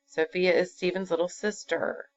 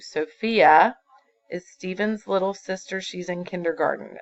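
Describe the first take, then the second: First: "sister" falls away to a full stop; voice drops at the end. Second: Teacher shows the run-on reading to the class, flowing on without a break; read without a stop. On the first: Teacher shows the class the falling end of a statement. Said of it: "you notice your voice goes down". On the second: Teacher reads sentence straight through as one. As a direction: run straight through after sister with no pause. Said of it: "is how you would read that". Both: Shown as a demonstration.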